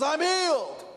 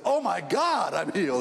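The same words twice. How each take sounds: First: Leaping way up high on I'm healed; wrong version. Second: Oh my God pitched up, then I'm healed settling back; more natural, grounded cry of relief; a milder imitated exclamation; the real version. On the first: Retold or imitated. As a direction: squeal it out at the top of the voice, hammed up. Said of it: "Didn't say it that way". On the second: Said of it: "is what he said".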